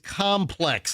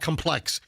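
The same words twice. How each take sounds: First: The stress is on the first syllable. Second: The stress is on the second syllable. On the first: The speaker calls it right. "Put the intonation on com complex" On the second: The speaker calls it wrong. "put it on the X"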